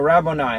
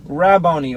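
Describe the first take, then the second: First: Rabboni ending in "nigh", rah-BOH-nye; alternate Rabboni. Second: Rabboni ending in "nee", rah-BOH-nee. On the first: Teacher offering the class a second way to say Rabboni, ending in "nigh". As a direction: say Rabboni with the last syllable rhyming with "eye". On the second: Teacher reading the Bible aloud to the class, saying Rabboni ending in "nee". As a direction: say Rabboni with the last syllable as "nee". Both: Shown as a demonstration. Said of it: "or Rabboni".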